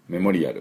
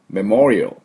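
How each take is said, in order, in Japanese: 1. 平板な日本語のカタカナ発音です。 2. ネイティブの英語発音です。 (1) "これももう日本語英語になってますね。" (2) "正しく発音すると"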